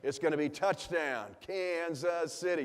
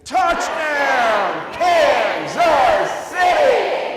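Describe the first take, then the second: First: Said in the usual way. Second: Slow shouted stadium chant, high; sung, staccato. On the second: Shown as a demonstration. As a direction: belt each syllable out like a chant. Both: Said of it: "It's a staccato notes".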